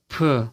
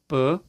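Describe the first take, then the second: First: The p is said with a puff of breath. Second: The p is said without a puff of breath.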